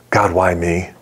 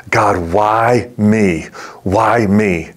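First: Low, understated echo of the plea; gentle echo. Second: Slow, drawn-out retold plea to God; anguished plea. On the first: Retold or imitated. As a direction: quote the question back gently, lower. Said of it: "in just such a sweet and gentle way". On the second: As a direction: stretch out WHY in a mild lament. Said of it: "the question that bubbled up in his heart".

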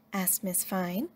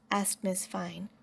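Both takes have the same delivery.

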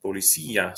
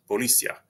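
First: Policía as po-li-SÍ-a, stress on the í; stressed í hiatus. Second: Policia as po-LI-cia, last i unstressed; unaccented i diphthong. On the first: Teacher modelling policía for learners, stressed í in its own syllable. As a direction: hold the í of policía apart from the a. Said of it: "they're separate syllables because that I accent". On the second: Teacher showing policia without the accent, ia as one syllable. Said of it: "If that I weren't accented like that". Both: Shown as a demonstration.

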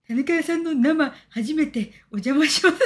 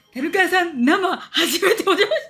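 First: Slow, leering mock fan voice; slow suggestive comment voice breaking into a laugh; creepy read-aloud. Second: Slow, higher, leering mock voice breaking into laughter; slow laughing mock fan greeting; creepy read-aloud. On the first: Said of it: "なんかキモい、". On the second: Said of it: "キモい。".

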